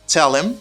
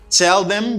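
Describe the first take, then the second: First: The second word is reduced and linked. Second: Both words are said fully and separately.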